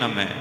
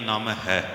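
First: The word ends in a 'mai' sound. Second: The word is split as 'naam' plus 'hai'. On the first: This is another acceptable way to pronounce it. "ਇਸ ਢੰਗ ਨਾਲ ਵੀ ਉਚਾਰ ਸਕਦੇ ਹਾਂ" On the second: This is the reading commonly heard since childhood. "ਬਚਪਨ ਤੋਂ ਲੈ ਕੇ ਸੁਣਦੇ ਆ ਰਹੇ ਹਾਂ ... ਠੀਕ ਹੈ"

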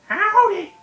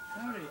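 First: It is said in a Toad impression voice. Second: It is said in his natural voice.

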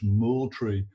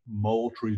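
First: The name is said the Scottish way. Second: The name is said the local Georgia way. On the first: The speaker calls it right. "properly the Scottish Moultrie" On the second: The speaker calls it wrong. "where they badly mispronounced the name"

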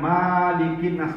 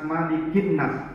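First: The first vowel is held long. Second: The first vowel is kept short. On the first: It means the one who owns mankind. The speaker calls it wrong. "Bukan Malikin Nas, bukan. Salah tuh" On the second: It means king of mankind. The speaker calls it right. "tidak boleh panjang dibaca"

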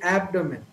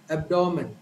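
First: The stress falls on the first syllable. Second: The stress falls on the second syllable. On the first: This is how a native speaker says it. "the stress is given to the first syllable. So typically the right pronunciation would be abdomen" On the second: This is how most Indian speakers say it. "most of the Indian speakers have developed a neutral accent under which this word would be said as abdomen"

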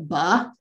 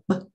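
First: The b sound has an added vowel after it. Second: The b sound is short with no added vowel. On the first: "you don't say buh" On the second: "forcing them to do it clipped, like buh"

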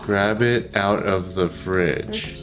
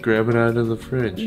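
First: The phrase is spoken slowly. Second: The phrase is spoken quickly. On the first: The speaker calls it right. "그렇지" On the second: The speaker calls it wrong. "너 너무 빨라"

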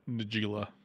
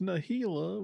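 First: The second consonant sounds like an English J. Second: The second consonant sounds like an English H. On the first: The speaker calls it wrong. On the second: The speaker calls it right.

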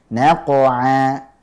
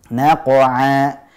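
No difference in how they are said.

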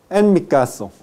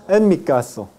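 Both takes have the same delivery.

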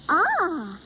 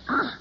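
First: It sounds pleased. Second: It sounds disgusted.

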